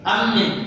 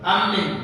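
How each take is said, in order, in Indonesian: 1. Vokal setelah m pendek. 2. Vokal setelah m pendek.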